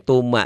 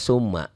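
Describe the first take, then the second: First: The first sound is a hard stopped t. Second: The first sound is a plain hissing s. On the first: "Ada juga yang baca tuma karena baca Latin. ... T-nya jangan dibaca" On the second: "Banyak orang yang baca summa"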